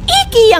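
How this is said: It is pronounced the way locals say it. "IKEA nga pala ang tawag nila dito"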